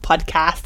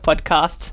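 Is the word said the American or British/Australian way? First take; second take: American; British/Australian. First: The word is said with an American pronunciation. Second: The word is said with a British/Australian pronunciation. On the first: "the US way" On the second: "the British way or the proper Australian way"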